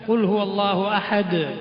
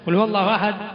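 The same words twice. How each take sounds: First: The final d is bounced with a short echo. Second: The final d stops silently without an echo. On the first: The speaker calls it right. "ദാൽ കേൾക്കണം" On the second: The speaker calls it wrong. "എന്ന് ഓതിയാൽ പോരാ"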